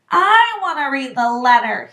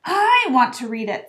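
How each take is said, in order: First: Loud, demanding spoilt son; loud, insistent whine; loudly. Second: Put-on indignant, insistent boy; understated fury; furiously. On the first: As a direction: demand it at full voice. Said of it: "he said loudly". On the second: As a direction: insist on it, angry and a little louder. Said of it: "said Harry furiously". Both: A narrator's reading.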